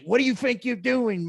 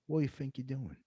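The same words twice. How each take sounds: First: The line is delivered loudly and aggressively. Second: The line is delivered quietly and with restraint. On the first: The threat is made openly and forcefully. "like just really going at it" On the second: The threat is implied through understatement. "it's the subtlety"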